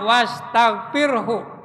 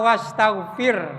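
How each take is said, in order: First: The word ends with a faint 'hu' sound. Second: The word ends without a final 'hu' sound. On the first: The speaker calls it right. "Padahal di sini aslinya" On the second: The speaker calls it wrong. "Kedengarannya yang salah"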